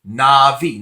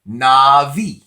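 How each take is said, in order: First: The middle consonant is a V sound. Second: The middle consonant is a V sound.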